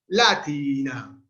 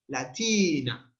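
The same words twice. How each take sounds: First: The stress is on the first syllable. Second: The stress is on the second syllable. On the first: The speaker calls it wrong. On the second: The speaker calls it right. "T es larga"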